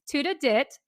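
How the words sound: It is said in a Filipino accent.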